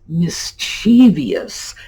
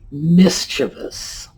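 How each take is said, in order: First: The word has an extra sound near the end. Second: The word has no extra sound near the end. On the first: The speaker calls it wrong. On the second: The speaker calls it right.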